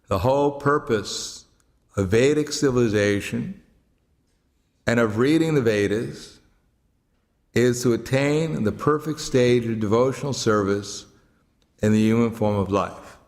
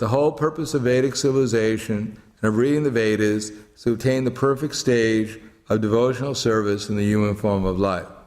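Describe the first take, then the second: First: It is read slowly. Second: It is read at normal speed.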